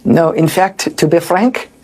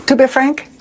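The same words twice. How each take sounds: First: A failed stab at a French accent, barely shifted from his own voice; a hint of a mock French accent; fake French accent. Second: A second go at a mock French accent, a bit more French; lightly hammed French accent; fake French accent. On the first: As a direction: try the French accent and fall short. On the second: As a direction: lean harder into the French accent. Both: Shown as a demonstration. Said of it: "I can't even do a fake French accent".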